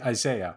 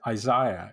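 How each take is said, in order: First: The name has a North American pronunciation. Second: The name has a non-American pronunciation. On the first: This is how the speaker habitually says it. The speaker calls it wrong. "because I'm of a North American disposition" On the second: This is the form that one is supposed to use. The speaker calls it right. "one should say Isaiah"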